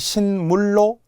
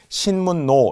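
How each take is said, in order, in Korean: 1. 로 앞의 자음은 l 소리예요. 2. 로 앞의 자음은 n 소리예요. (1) "발음을 잘못하면 신물로, 리을" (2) "니은이라서 그대로 신문의 니은"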